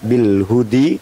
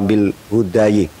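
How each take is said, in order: First: The word ends in an i vowel. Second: The word ends in an ayi sound. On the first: "tidak bil hudi" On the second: "atau bil hudayi"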